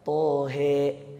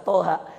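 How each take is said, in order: First: The final vowel is tilted toward 'e'. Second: The final vowel is an open 'a'.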